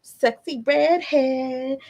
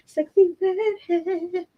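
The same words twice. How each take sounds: First: Said in the usual way. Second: "redhead" drawn out slow and very high; sing-song high. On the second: Shown as a demonstration. Mother repeating a viewer's name in a slow, high sing-song.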